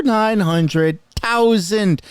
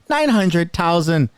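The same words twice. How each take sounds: First: "nine hundred thousand" stretched out, slow, each word leaned on; drawn-out emphasis. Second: Said in the usual way. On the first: Shown as a demonstration. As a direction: draw out "nine hundred thousand" slowly for effect.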